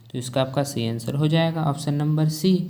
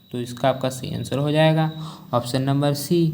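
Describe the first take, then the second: The two takes are said the same way.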